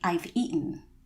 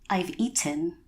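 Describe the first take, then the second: First: The T in eaten is stopped, not crisply released. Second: The T in eaten is pronounced as a crisp T. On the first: The speaker calls it right. "that's not the natural way in this particular dialect. So you would say" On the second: The speaker calls it wrong. "pronounce it how you might think it's pronounced"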